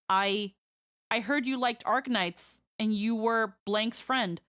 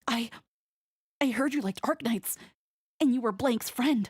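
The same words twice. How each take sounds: First: It is read in the speaker's normal voice. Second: It is read in a squeaky Deku impression.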